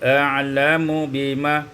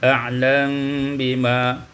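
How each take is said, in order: First: The m is followed by a u vowel. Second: The m has no vowel and is hidden.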